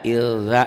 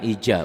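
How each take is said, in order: First: The middle consonant is a z-like sound. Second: The middle consonant is a j-like sound. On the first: The speaker calls it right. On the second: The speaker calls it wrong.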